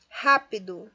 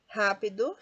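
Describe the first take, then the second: First: "Rápido" with a louder RÁ; stress on ra. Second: Said in the usual way. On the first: Shown as a demonstration. Teacher shows the tonic syllable, "Rápido" stressed on RÁ. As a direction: punch the first syllable of "Rápido". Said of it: "ra é a sílaba tônica mais forte". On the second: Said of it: "Rápido recebe acento".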